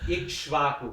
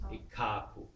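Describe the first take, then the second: First: The full three-consonant cluster is pronounced. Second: The cluster is reduced to a doubled k. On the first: "because that's really Kashava, triple combination" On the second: "double the Ka and drop the other syllables"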